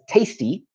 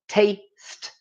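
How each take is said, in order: First: The word ends with an extra vowel sound. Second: The word ends cleanly on the final consonant. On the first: The speaker calls it wrong. "Often this is pronounced as tasty" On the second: The speaker calls it right. "but this is how we say it"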